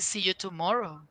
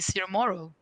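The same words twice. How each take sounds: First: The T is pronounced as a clear T. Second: The T is pronounced as a flap. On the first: "the American people don't say" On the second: "They use the T as an R sometimes"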